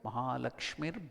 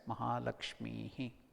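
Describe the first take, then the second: First: The word ends with an "r" sound. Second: The word ends with a breathy "hi" sound. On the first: The word is joined to the next word. "When you combine together" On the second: The word is chanted on its own. "When you break it up, you have to chant it as Mahalakshmihi"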